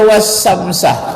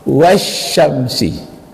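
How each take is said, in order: First: The word ends with an a vowel. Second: The word ends with an i vowel. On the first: The speaker calls it wrong. "tak boleh dibaca" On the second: The speaker calls it right. "setiap waw sumpah itu harus baris bawah sesudahnya"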